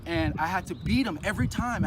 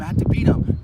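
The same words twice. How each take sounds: First: Said in the usual way. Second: "I had to beat him" pushed out much louder and breathy, stress on had; emphatic repeat. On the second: Real, not acted. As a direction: hit "had" hard, breathy and loud.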